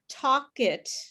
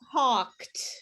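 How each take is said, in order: First: The ending is an extra syllable, like 'id'. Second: The ending is a short 't' sound. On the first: The speaker calls it wrong. "it's not talk it" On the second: The speaker calls it right. "It's talked. So it's only one syllable, one clap"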